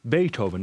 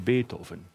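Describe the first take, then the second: First: The name is said the English way. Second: The name is said the German way.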